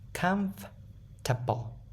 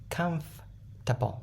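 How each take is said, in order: First: It ends with a full, clear 'table' sound. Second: It has three syllables with a reduced ending. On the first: The speaker calls it wrong. "Comfortable table လည်းမဟုတ်နော် table" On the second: The speaker calls it right. "just only three syllables"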